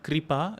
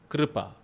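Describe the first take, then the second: First: The k is followed by an 'ri' sound. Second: The k is followed by a syllabic r vowel. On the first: The speaker calls it wrong. "it's not Kripa, it is not E" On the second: The speaker calls it right. "it is Kripa"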